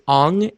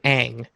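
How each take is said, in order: First: The vowel sounds like 'ah', as in 'on'. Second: The vowel sounds like the 'a' in 'cat'. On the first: This is how the movie says the name. The speaker calls it wrong. "Why does he pronounce it in the movie as Ong" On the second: This is how the show says the name. The speaker calls it right. "in the show they pronounce his name Aang"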